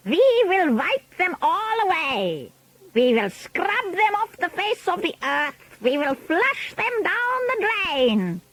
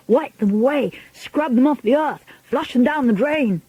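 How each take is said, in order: First: Grand High Witch. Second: Higher, even-beat crowd chant; chanting audience. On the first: Witch leader rallying her followers against children, high imperious voice. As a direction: build the menace with long, high vowels. Witch rallies audience, they echo. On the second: Witches echoing their leader's orders, eager chant. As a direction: chant it back eagerly in short bursts. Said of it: "chanted the audience". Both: A narrator's reading.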